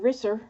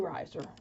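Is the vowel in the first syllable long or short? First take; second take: short; long. First: The first vowel is a short i sound. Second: The first vowel is a long i sound. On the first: "two consonants ... following a single vowel is a short vowel sound" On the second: "but it could be riser"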